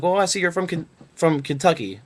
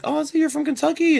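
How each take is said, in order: First: Said in the usual way. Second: Much higher, chirpy mock interviewer voice; mimicking the interviewer. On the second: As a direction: lift it way up into a bright fake recruiter voice. Interviewer's line redone in put-on voice.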